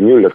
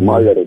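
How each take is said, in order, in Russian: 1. Имя начинается с огубленного гласного 'ü'. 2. Имя начинается с открытого гласного 'ah'. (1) "это не совсем папаша Мюллер, как в Америке произносят эту фамилию" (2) "Маллер, американцы говорят"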